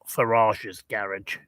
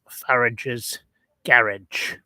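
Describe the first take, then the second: First: The name does not rhyme with the word after. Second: The name rhymes with the word after it. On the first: The speaker calls it wrong. "not Farage's Garage" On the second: The speaker calls it right. "it was known as Farage's Garage"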